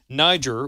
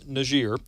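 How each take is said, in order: First: Niger is said with its usual English pronunciation. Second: Niger is said with a different, newer pronunciation.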